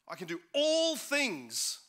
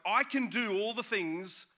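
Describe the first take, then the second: First: The word all is stressed. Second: The word do is stressed. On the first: The focus is on doing absolutely everything. "It's about all" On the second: The focus is on what the speaker does. "the emphasis is now on us doing"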